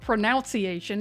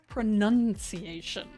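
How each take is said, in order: First: The second syllable sounds like 'noun'. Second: The second syllable sounds like 'nun'. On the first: The speaker calls it wrong. "don't spell it pronunciation" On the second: The speaker calls it right. "it's pronunciation"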